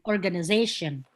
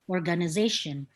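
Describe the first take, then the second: First: It is said with an American accent. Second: The same.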